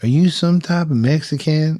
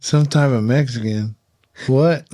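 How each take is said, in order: First: "some type of Mexican" asked higher and louder in a cowboy voice; the Oklahoma local sizing him up, higher and louder; cowboy asking. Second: "Some type of Mexican?" echoed back in disbelief, "What?" higher and louder; incredulous. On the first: Oklahoma equipment manager voiced in story. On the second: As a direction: throw the words back, baffled. Speaker repeating the question in disbelief. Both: Retold or imitated.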